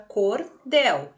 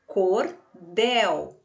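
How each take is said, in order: First: "cordel" split evenly into cor and del; two separate syllables. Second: "cordel" split slowly, with DEL stronger; stress on DEL. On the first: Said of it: "dividida aqui em duas sílabas". ("cordel" dividido em cor e del) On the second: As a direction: put the force on the last syllable of "cordel": cor-DEL. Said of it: "a que sai com mais força". ("cordel" com mais força no DEL) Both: Shown as a demonstration.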